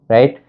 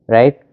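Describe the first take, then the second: Both takes have the same delivery.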